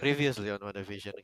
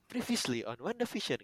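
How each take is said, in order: First: It sounds lazy and bored. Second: It sounds eager and excited.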